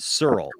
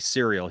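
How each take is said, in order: First: The word is said as 'Searle'. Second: The word is said as 'cereal'. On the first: This is how the cousin says it. "he calls it Searle" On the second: This is the usual way to say it. "He doesn't say cereal"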